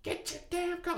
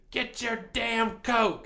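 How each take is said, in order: First: Imitating mom. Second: Slow, high mock yell; imitating mom's yell. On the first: Mom scolding her son about his coat, high mock scold. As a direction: squeak it like an exasperated mom. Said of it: "only time she's ever yelled". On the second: Mom scolding her kid about his coat, slow high mock yell. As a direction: drag it out like a fed-up mom. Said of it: "she told me to".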